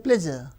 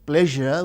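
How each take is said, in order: First: The middle consonant is a 'z' sound. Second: The middle consonant is a 'zh' sound. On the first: "So we replace with z" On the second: "we don't say pleasure"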